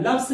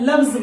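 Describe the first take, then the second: First: "लव्स" ending in a hissed s sound; wrong way. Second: "लव्स" ending in a buzzed z sound; right way. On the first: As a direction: show the wrong "लव्स" with a plain s. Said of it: "लव्स नहीं बोलना है आपको". ("लव्स" गलत, s की आवाज़ के साथ) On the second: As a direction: model the correct "लव्स" with z. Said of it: "बोलना है लव्स बोलना है". ("लव्स" सही, z की आवाज़ के साथ) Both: Shown as a demonstration.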